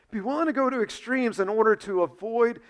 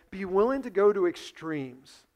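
First: Be willing to go to extremes said higher and louder, pressed hard; emphatic repeat. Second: Said in the usual way. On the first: Shown as a demonstration.

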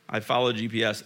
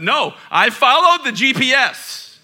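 First: Said in the usual way. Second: High, loud mock protest; mock indignant. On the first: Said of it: "repeat, sheepish". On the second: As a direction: act outraged at yourself. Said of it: "mock indignant defense".

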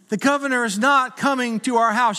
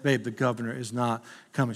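First: Exasperated husband. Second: Lower, softer, humouring her; hushed, gently calming the sleeping wife; quiet late-night reassurance; patient husband. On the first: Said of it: "I'm like, "Babe". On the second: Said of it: "I bet". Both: Retold or imitated.

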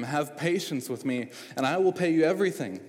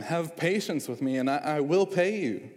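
First: Desperate plea rising higher and louder toward the end; imploring. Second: Urgent begging, higher and louder; pleading. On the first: Servant begging his master for patience, pleading. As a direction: beg the master for more time. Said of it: "imploring him". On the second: Fellow servant begging the unforgiving servant, pleading. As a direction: plead desperately for mercy. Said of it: "pleaded with him". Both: A narrator's reading.

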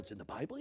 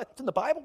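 First: Mild surprise. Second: Much higher, delighted question; excited surprise. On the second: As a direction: ask it like amazing news. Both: Acted. Acting the listener's reaction.

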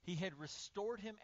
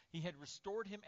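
Both takes have the same delivery.

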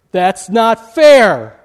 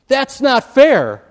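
First: Much louder, slow, stretched-out protest; yelled protest. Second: Higher, louder, slow indignant whine; indignant cry. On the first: Student yelling at professor: slow loud protest. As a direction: drag out the complaint, loud and slow. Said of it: "was yelled out by one of the students". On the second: Indignant student protesting grade: high loud whine. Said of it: "now they're indignant". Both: Retold or imitated.

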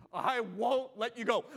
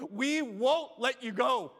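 First: Slow, drawn-out vow of desperation; desperate vow. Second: Slow, louder, building vow; louder desperate vow. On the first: Preacher voicing the church's desperate vow, slow. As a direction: say it like a man clinging on. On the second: Preacher leading the church's vow, louder and slow. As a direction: push the vow louder, refusing to let go. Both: Acted. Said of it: "a Jacob-like desperation".

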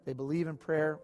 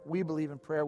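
First: Said in the usual way. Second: We said with weight, set against They; stress on WE. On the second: Shown as a demonstration. Pastor contrasting the church with others, We stressed.

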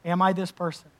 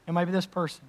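First: I leaned on in Am I this person; self-searching, weight on I; stress on I. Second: This leaned on in Am I this person; self-searching, weight on this; stress on this. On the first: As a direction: press the word I, asking yourself. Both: Shown as a demonstration. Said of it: "search me".

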